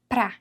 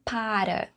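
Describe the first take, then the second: First: The word is shortened to one syllable. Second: The word is said in full, two syllables. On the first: This is the everyday spoken form. "nós falamos pra" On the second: This is the written, standard form. "e não para"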